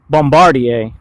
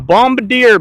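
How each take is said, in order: First: It is pronounced in a French way. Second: It is pronounced in an English-speaking way. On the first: "pronouncing it like the French" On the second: "the Americans and the Brits would call it"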